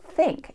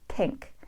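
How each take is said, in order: First: It begins with a standard th sound. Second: It begins with an unaspirated t-like dental sound. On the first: The speaker calls it wrong. "it's not think" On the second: The speaker calls it right. "It's pink"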